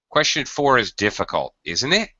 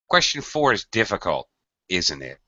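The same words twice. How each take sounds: First: The voice rises on the tag at the end. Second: The voice falls on the tag at the end. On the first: "Or alternatively" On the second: "Difficult, falling, isn't it? Falling"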